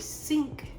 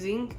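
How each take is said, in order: First: The word begins with a hissing S sound. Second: The word begins with a buzzing Z sound. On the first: This is the way taught at school. "no, it has an S. You say sink" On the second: This is the rural way the speaker grew up with. "That's how like country people say it"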